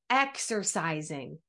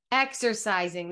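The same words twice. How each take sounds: First: Slow, low, drawn-out exercising; drawn-out word. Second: Said in the usual way. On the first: Shown as a demonstration. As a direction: stretch out exercising slowly and drop the pitch.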